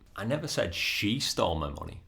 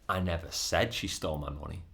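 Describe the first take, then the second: First: The stress falls on the word she. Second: The stress falls on the word said. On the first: Someone other than her stole the money. "I just said somebody stole my money or somebody else stole my money" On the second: The speaker only thought or implied it. "but I might have thought it or implied it"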